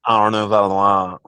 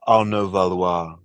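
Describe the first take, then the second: First: The name is said with an American accent. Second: The name is said with an English accent. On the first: "Can you say it in an American accent?" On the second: "in English"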